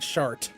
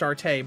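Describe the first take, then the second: First: The name is said with one syllable. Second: The name is said with two syllables. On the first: This is the speaker's own chosen pronunciation. "I am pronouncing it Shart" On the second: This is likely the intended pronunciation. "it's probably pronounced Shartay"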